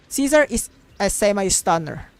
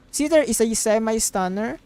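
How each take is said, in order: Both takes have the same delivery.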